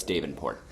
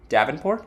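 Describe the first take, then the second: First: Davenport with a long A, DAY-ven-port, falling; "Davenport" starting like "day", low and quiet; settled pronunciation. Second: Davenport with a short A, DAV-en-port, rising; "Davenport?" with "dav" as in "have"; questioned pronunciation. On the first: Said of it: "So it's Davenport". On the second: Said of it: "You sure?". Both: Shown as a demonstration.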